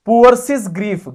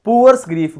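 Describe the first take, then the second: First: पुअर्सिस with an extra "sis" syllable, loud; wrong "poor-sis" before grief; doubled s. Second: Said in the usual way. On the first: Shown as a demonstration. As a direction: hit the double ending of पुअर्सिस loudly. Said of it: "गलत है". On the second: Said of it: "बोलो पुअर्स grief".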